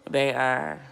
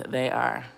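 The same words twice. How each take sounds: The two takes are said the same way.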